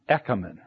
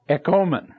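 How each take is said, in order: First: The middle vowel is a short o sound. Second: The middle vowel is a long o sound. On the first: "we have the ah sound, a short. It's an omicron. The ah sound" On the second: "The other one is we have a long O"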